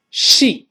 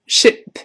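First: Sheep 的元音拉长; 领读 sheep，ee 读长音“一”; 长元音. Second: Ship 的元音读短促; 领读 ship，i 读短音; 短元音. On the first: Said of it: "这是长音一". (sheep 读长音“一”) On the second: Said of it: "哎，不一样。". (ship 读短音，不拉长) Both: Shown as a demonstration.

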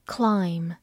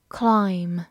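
Both takes have the same delivery.

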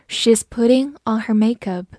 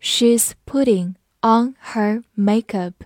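First: Said in the usual way. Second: Slow, word-by-word model sentence; slow read-through. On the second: Shown as a demonstration. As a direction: separate each word for the learners. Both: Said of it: "好，慢慢来读".

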